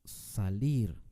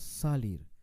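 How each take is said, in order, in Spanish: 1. El acento está en la última sílaba. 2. El acento está en la primera sílaba. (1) "con mucho énfasis al final" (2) "Tampoco decimos salir"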